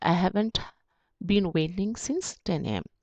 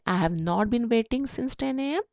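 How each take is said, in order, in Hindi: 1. "Have not" को एक शब्द में छोटा करके बोला जाता है। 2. "Have not" दो पूरे शब्दों की तरह बोला जाता है। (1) "शॉर्ट में हैवेंट भी बोलते हैं" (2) "हैव नॉट"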